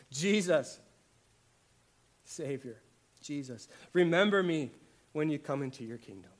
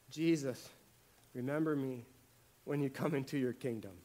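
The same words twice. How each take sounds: First: Loud, urgent plea to Jesus; pleading prayer. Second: Said in the usual way. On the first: Acted. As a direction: cry out the prayer with force, pleading. Voicing the thief's prayer.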